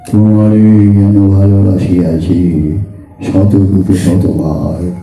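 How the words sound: The voice is heavy, deep and grave. It drives the love away. The speaker calls it wrong. "আমার ভারী গলা, গম্ভীর গলা"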